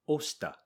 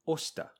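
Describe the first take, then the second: Both takes have the same delivery.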